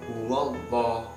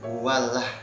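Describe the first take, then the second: First: The L is pronounced heavy and full. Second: The L is pronounced light and thin. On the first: The speaker calls it right. "Kalau fathah itu berarti menjadi lam tafhim, dibaca huwallah" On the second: The speaker calls it wrong. "bukan huwalah"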